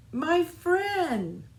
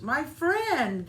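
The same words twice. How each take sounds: First: High, loud happy cry; gleeful exclamation. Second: High, loud joyful reply; gleeful exclamation. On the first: Little Seed greeting Fox again, gleeful shout. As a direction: burst out with joy. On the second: Little Fox greeting the sprout, gleeful shout. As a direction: shout it back with delight. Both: Acted. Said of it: "they each exclaimed with glee".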